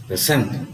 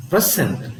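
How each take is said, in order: First: "present" with a low pre and a strong SENT; stress on second syllable. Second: "present" with a strong PRE, falling away; stress on first syllable. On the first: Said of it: "the stress is on the second syllable". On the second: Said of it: "The stress is on the". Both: Shown as a demonstration.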